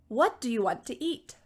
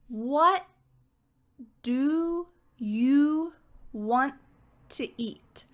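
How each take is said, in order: First: The sentence is spoken quickly. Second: The sentence is spoken slowly. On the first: "Can you say it quickly with me?" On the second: "I'm going to say both of those sentences slowly"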